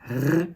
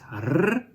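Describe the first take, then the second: First: The R sound is not rolled. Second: The R sound is rolled. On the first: "or the r" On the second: "the rolling R"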